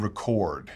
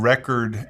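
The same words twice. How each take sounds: First: RECORD as the verb, stressed on CORD; second-syllable stress. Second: RECORD as the noun, stressed on REC; first-syllable stress. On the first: Teacher contrasting word stress, RECORD stressed at the end. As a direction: hit the last syllable of RECORD. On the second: Teacher contrasting word stress, RECORD stressed at the front. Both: Shown as a demonstration. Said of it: "English is a word stress language".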